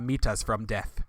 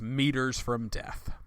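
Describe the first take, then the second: First: It is said in a Kenyan accent. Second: It is said in an American accent.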